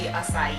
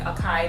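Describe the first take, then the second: First: The c is pronounced soft, like an s. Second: The c is pronounced hard, like a k. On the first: The speaker calls it right. "the little soft symbol under the sea means that it's a soft sea" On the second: The speaker calls it wrong. "instead of saying like acai that some people say"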